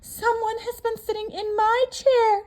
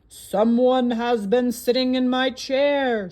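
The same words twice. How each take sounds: First: The voice is medium-pitched and moderate. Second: The voice is deep and gruff. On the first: A middle-sized character is speaking. "said the Mama Bear in her middle-sized voice" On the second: A large, gruff character is speaking. "said the Papa Bear in his great gruff voice"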